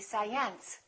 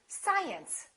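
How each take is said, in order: First: The stress is on the second syllable. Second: The stress is on the first syllable. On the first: The speaker calls it wrong. "If this mark were located over here, the pronunciation would have to be science" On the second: The speaker calls it right. "it's the first one. It would be science"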